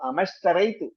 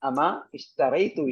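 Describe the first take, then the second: First: The 'i' is dropped and the words are linked. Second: The 'i' of ishtaraytu is pronounced separately.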